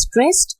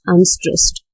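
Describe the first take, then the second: First: "stressed" high and rising, without extra volume; high-pitched, rising "stressed"; stressed beat. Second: "unstressed" dropped in pitch after the strong beat; low-key, unlifted "unstressed". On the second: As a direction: let "unstressed" sink as the weak beat. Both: Shown as a demonstration. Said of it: "The syllable went like this".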